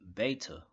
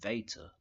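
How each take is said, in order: First: The word begins with a b sound. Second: The word begins with a v sound. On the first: This is the ancient name of the letter. "in the ancient, for the letter B, it was called beta" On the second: This is how people say it today. "now people say Veta, like Darth Vader"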